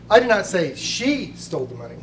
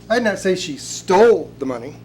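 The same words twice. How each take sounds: First: The word 'she' carries the main stress. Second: The word 'stole' carries the main stress. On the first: Someone else took it. "You're saying that it was stolen by someone else" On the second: It may have been borrowed instead. "She may quite possibly have borrowed it"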